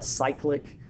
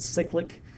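First: "cyclic" said SIKE-lik, like cycle; alternative pronunciation. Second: "cyclic" said SICK-lik, short i; own habitual pronunciation. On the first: Teacher showing students how others say it, "cyclic" as SIKE-lik. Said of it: "Some people pronounce that". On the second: Teacher showing students their own habit, "cyclic" as SICK-lik. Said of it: "I've always pronounced it". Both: Shown as a demonstration.

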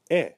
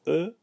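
First: "E" said as short "eh"; "E" as an open "eh" sound; softened grave E. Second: "E" said as a neutral "uh" sound; "E" voiced as "uh", rising in tune; unaccented E. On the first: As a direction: say "E" like the short e in English "bed". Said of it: "a short E in English". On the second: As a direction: say "E" as Creole "uh". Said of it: "So the E, we know, is". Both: Shown as a demonstration.

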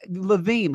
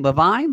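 First: Levine said luh-VEEN; pronunciation check. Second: Levine said luh-VINE, rising in question; alternative pronunciation. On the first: Host checking a guest's last name, Levine as luh-VEEN. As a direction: say Levine with a long ee in the second syllable. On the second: Host guessing at a guest's last name, Levine as luh-VINE. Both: Shown as a demonstration. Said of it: "How do you say your last name?".

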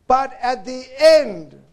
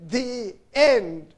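First: "end" drawn out slow and loud; stress on END. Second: "the end" repeated with a firm fall on "end"; stress on END. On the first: Preacher quoting scripture to the congregation, loud slow stress on "end". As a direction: lean hard on the word "end", slowing down. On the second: Preacher repeating the key word for his listeners, firm stress on "end". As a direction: set "end" apart, landing it firmly. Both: Shown as a demonstration. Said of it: "the emphasis is on the word".

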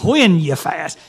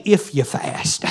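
First: Said in the usual way. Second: "If you fast." breathed almost without voice, slow and soft; hushed, drawn-out wrong reading; hushed mock if. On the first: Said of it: "He said". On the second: Shown as a demonstration. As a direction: drop it to a slow, breathy near-whisper as the wrong version. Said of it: "He didn't say".

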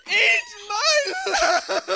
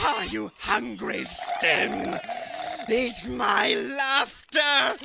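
First: Shouted through a laugh. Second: Drawn-out taunt shouted at him; slow taunting shout. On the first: Taunting Stim again, laughing shout. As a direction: crack up while yelling the taunt. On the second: Taunting Stim with his laughter, slow shout. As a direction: spit it out slowly as a taunt. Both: Acted.

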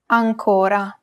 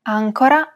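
First: "ancora" stressed on the middle syllable, an-CO-ra. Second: "Ancora" stressed on the first syllable, AN-co-ra. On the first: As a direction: lengthen the "co" in "ancora". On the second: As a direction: hit the opening "An" of "Ancora". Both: Shown as a demonstration. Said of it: "distinguish between two words".

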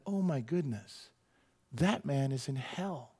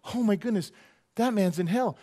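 First: Stunned and sincere. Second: Said in the usual way. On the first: Retold or imitated. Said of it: "And I just went". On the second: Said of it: "I don't go".

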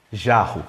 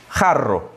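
First: "Jarro" opening on zh, rr as a breathed h; Portuguese pronunciation. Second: "Jarro" opening on a throaty h, rr rolled; Spanish pronunciation. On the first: Teacher recapping the difference, Portuguese pronunciation. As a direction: say "Jarro" the Brazilian way, dropping in pitch. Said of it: "Em português". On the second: Teacher recapping the difference, Spanish pronunciation. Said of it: "Em espanhol". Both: Shown as a demonstration.

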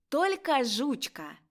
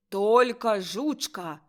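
First: Higher, slow model "Толька жучка"; teacher's correction. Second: Slow, forceful reading; louder. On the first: Acted. Teacher repeats pupil's words, higher model "Толька". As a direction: lift "Толька" and say it precisely. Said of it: "Баронова Козино". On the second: A narrator's reading. Pupil reads verse to teacher, louder. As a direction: sound it out more boldly and loudly. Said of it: "Мазайло голосніш".

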